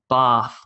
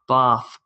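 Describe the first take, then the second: First: It is said in an Australian accent. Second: It is said in an Australian accent.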